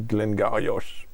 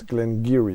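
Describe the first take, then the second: First: The name ends with an 'och' sound. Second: The name ends with an 'ee' sound. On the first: This is how French speakers say the name. The speaker calls it wrong. "French say" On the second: This is the proper way to say the name. The speaker calls it right. "but it's Glengarry. It's the pronunciation"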